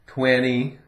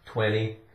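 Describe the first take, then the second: First: The T after the N is left out. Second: The T after the N sounds like a D. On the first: The speaker calls it right. "we don't even really say the T" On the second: The speaker calls it wrong. "really we pronounce the T like a D"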